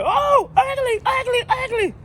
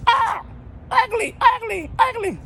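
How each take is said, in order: First: Very high, loud flapping squawk; squawking parrot. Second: Very high, loud squawk, slow; squawking parrot. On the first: Parrot flapping and squawking at the lady. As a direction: shriek it like a bird. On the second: Parrot squawking at the lady, shrill and loud. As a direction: screech it like a parrot. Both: Retold or imitated.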